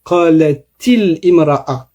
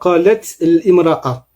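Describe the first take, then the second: First: An 'i' vowel links the two words. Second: Two consonants clash with no linking vowel. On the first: The speaker calls it right. "on va dire qalatil imra'a" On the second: The speaker calls it wrong. "et non pas qalat imra'a"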